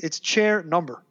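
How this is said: The phrase ends with a final falling close. The sentence is complete. The speaker calls it wrong.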